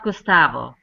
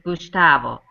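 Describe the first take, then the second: First: The name is said with a plain s sound. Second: The name is said with an sh sound. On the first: The speaker calls it wrong. "it's not Gustavo" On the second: The speaker calls it right. "It's Gustavo"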